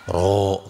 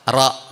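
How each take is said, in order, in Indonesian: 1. Bibir didorong ke depan dan dibulatkan. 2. Bibir tetap diam dan tidak dibulatkan. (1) "rata-rata monyong mulutnya ro gitu ya" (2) "bibir saya tidak bergerak ke depan"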